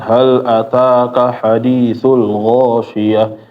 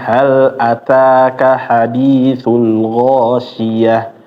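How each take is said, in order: First: The words are mumbled with little mouth opening. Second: The words are clear with the mouth opened wide. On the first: The speaker calls it wrong. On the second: The speaker calls it right. "tapi dibuka mulutnya"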